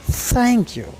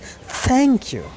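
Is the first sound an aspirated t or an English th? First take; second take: English th; English th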